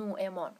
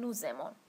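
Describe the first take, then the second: First: Nous and aimons are said without a linking z. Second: A z sound links nous to aimons. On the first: "نگفتم نوعمان" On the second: "گفتم نوزمان"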